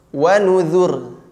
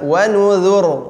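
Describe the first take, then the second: First: The final r is light and thin. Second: The final r is heavy and thick. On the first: "Wa nuzur tipis" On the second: "boleh dibaca wa nuzur tebal"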